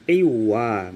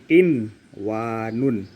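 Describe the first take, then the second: First: The n sound is dropped and merged away. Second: The n sound is clearly heard before w. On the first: The speaker calls it wrong. "Bukan qiwa" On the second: The speaker calls it right. "Dibaca dengan jelas tanpa lebur"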